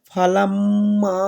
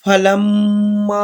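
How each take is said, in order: First: Said in the usual way. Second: ফালাম্মা chanted very slowly, mim doubled with nasal ghunna held; tajweed recitation. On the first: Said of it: "এখানে প্রথমে আমরা বললাম". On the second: Shown as a demonstration. Teacher showing students how to recite the word, slow chanted ghunna. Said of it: "তাহলে এখানে বলবেন".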